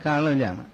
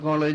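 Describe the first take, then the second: First: The first vowel is an open 'aa' sound. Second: The first vowel is a rounded 'o' sound. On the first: This is how southerners say it. "തെക്കോട്ടാകുമ്പോൾ കാളേജാണ്" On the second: This is how the listeners' region says it. "നിങ്ങളുടെ അവിടെ കോളേജ് എന്നൊക്കെ പറയും"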